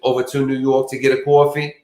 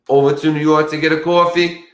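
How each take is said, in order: First: It is said in a plain, ordinary accent. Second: It is said in an exaggerated New York accent.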